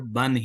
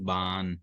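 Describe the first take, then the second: First: The vowel is short, with no lengthening. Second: The vowel is drawn out long before the n. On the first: The speaker calls it right. "बल्कि बा दो ज़बर बन ही पढ़े" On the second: The speaker calls it wrong. "इस अलिफ को लंबा करूंगा, उसके बाद इसको नून से मिला दूंगा"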